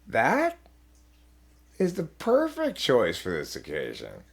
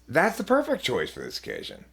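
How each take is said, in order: First: It is said in a sarcastic tone. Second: It is said sincerely, in a normal tone.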